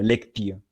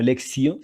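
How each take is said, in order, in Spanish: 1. Se pronuncia con la pronunciación latina clásica. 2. Se pronuncia con la pronunciación latina eclesiástica. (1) "sino lectio" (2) "no lectio"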